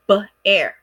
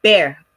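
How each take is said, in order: First: "B-air" split into b and air; first sound of "B-air" set apart from the rest. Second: Said in the usual way. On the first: Shown as a demonstration. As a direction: sound out "B-air": short buh, then air. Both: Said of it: "That sounds like one syllable".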